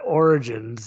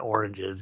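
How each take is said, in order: First: The word is said carefully with clear syllables. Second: The word is rushed, sounding like oranges. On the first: "But Origins" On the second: "I like to say Oranges because I say it too quickly"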